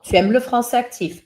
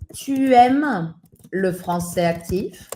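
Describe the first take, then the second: First: The voice falls at the end as a statement. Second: The voice rises at the end as a question.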